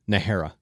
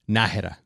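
First: The name has an English-style pronunciation. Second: The name has a Spanish-style pronunciation. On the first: This is how non-Mexicans say it. "my last name is pronounced, for gringos" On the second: This is how Mexicans say it. "Properly, ... That's the Mexican pronunciation"

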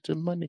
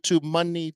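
First: It is said faintly, like a fading echo. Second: It is said at full, loud volume. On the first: "You heard the echo going down?" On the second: "I'll try to shout it down there"

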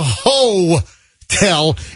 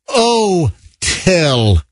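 First: The word starts with an H sound. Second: The word starts without an H sound. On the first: The speaker calls it wrong. "you can't call it a ho-tel" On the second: The speaker calls it right. "It's got to be an o-tel"

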